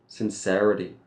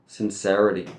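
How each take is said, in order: First: It is said in an American accent. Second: It is said in an American accent.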